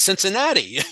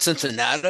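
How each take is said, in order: First: Every syllable of the word is said clearly. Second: The word is slurred with sounds dropped. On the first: The speaker calls it right. "that's how it's spelled" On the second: The speaker calls it wrong. "it's not Cincinnati"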